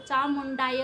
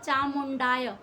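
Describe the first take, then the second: First: The word ends with an 'ai' vowel. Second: The word ends with a plain 'aa' vowel. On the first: The speaker calls it right. "चामुंडाय में दो मात्राएं लगती हैं, तो चामुंडाय हो जाता है" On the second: The speaker calls it wrong. "कुछ लोग बोल देते हैं चामुंडाय"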